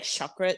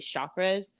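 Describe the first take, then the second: First: The word is said quickly and clipped. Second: The word is said slowly and drawn out. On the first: The speaker calls it right. "like it's supposed to be faster" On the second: The speaker calls it wrong. "if I could say it however I wanted to, I would say chakras"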